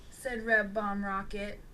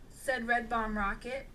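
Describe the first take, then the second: No difference in how they are said.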